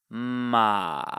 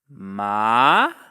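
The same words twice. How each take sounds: First: The pitch dips down then rises slightly. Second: The pitch rises from low to high. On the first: "This is the dipping tone" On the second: "you'll start low and go as high as you can"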